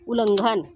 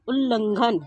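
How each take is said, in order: First: उल्लंघन with a single l, "ulanghan"; उल्लंघन misread as u-lan-ghan; wrong pronunciation. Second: उल्लंघन with a doubled l, "ullanghan"; उल्लंघन said as ul-lan-ghan; correct pronunciation. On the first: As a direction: say उल्लंघन without doubling the l. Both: Shown as a demonstration. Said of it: "अशुद्ध और फिर शुद्ध".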